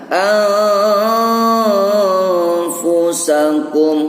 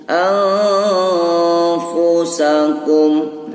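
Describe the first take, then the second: The two takes are said the same way.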